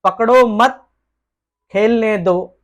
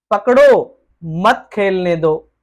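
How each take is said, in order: First: "पकड़ो मत," pause, then "खेलने दो" – don't catch, let him play; comma after मत. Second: "पकड़ो" stretched slowly and rising, pause, then "मत खेलने दो" – catch him, don't let him play; slow rising "पकड़ो", break, then "मत खेलने दो" as one order; comma after पकड़ो. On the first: ("पकड़ो मत" के बाद ठहराव, फिर "खेलने दो") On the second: ("पकड़ो" को धीमे खींचकर, फिर ठहराव के बाद "मत खेलने दो") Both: Shown as a demonstration. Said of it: "अल्प विराम को अलग-अलग स्थानों पर".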